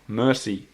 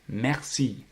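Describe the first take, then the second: First: It has English vowels, like the English word mercy. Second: It has French vowels, ending in a long ee. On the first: The speaker calls it wrong. "not mercy" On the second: The speaker calls it right. "The middle sound is closer to the one in the word mer. And the second one is like sea"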